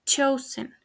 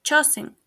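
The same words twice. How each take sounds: First: "chosen" as CHOH-sən; correct pronunciation. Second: "chosen" as CHO-sing; mispronounced. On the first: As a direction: end "chosen" on a weak en. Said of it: "The correct pronunciation is". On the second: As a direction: say "chosen" with s and an ing ending. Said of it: "mispronounced is". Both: Shown as a demonstration.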